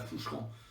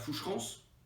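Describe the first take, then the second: First: The final S sound is silent. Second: The final S sound is pronounced. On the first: The speaker calls it right. "on ne prononce pas le S" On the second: The speaker calls it wrong. "On prononce pas le S"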